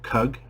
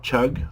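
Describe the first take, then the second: First: The word starts with a k sound. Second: The word starts with a ch sound. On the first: "not chug or cug" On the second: "not chug or cug"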